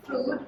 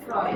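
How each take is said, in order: First: ফ্রুড said with a long oo, like "Frood"; ফ্রুড with the oo vowel, as the spelling suggests; spelling-based pronunciation. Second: ফ্রয়েড said with an oy vowel, like "Froyd"; ফ্রয়েড pronounced as the name really sounds, "Froyd"; correct pronunciation. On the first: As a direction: read ফ্রুড to rhyme with food. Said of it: "এটা দেখে মনে হয়". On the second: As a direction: say ফ্রয়েড with the oy of boy. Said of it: "pronunciation হচ্ছে ফ্রয়েড". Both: Shown as a demonstration.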